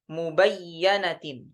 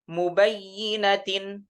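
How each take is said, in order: First: The doubled y is followed by an a vowel. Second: The doubled y is followed by an i vowel. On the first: This is the reading in the Shu'bah transmission. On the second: This is the base reading.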